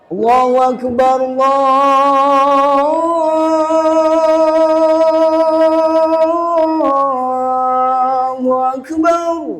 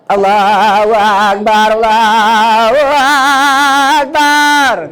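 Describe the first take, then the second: First: It is said in a young man's voice. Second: It is said in an old man's voice.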